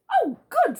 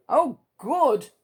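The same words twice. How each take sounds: First: Mister Happy, chirpy. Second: Mister Greedy, eager. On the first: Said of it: "said Mister Happy". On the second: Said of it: "said Mister Greedy". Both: Acted.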